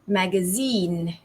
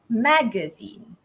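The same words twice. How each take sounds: First: The stress is on the third syllable. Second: The stress is on the first syllable. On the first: "British English way. The stress actually falls on the third syllable" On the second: "Compared to American English, the stress falls on the ma, the first syllable"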